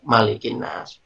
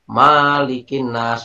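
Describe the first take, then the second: First: The first vowel is kept short. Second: The first vowel is held long. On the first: The speaker calls it right. "yang ada adalah hanya pendek" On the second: The speaker calls it wrong. "langsung disuruh berhenti sama pak kiainya"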